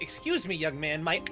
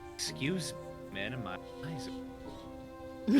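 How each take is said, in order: First: It is said in a stern, scolding tone. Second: It is said in a seductive, flirty tone.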